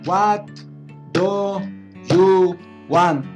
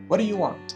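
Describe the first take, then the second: First: Each word is said separately and slowly. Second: The words run together quickly and smoothly. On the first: The speaker calls it wrong. "como un principiante, No estoy conectando las palabras" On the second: The speaker calls it right. "Que sería la pronunciación natural, súper rápido"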